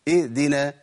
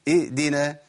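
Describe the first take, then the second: No difference in how they are said.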